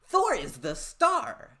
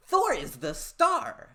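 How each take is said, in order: First: It is said in an imitated voice. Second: It is said in an imitated voice.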